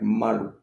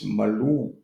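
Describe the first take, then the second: First: The stress is on the first syllable. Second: The stress is on the second syllable. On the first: It means loincloth. "so the a has more emphasis, and the u is almost not heard" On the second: It means bass, smooth or tender. "Now let's put the emphasis on the u"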